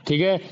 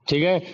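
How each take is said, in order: Both takes have the same delivery.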